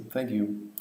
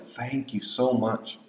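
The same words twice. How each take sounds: First: Low, soft, toneless routine thank-you; lifeless thanks. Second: Slow, heartfelt, softened thanks; very thankful. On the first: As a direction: thank them lifelessly, as a mere formality. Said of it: "you would say it very lifelessly". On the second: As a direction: stretch it out with real gratitude, leaning on "so". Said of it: "You would be very thankful". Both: Shown as a demonstration.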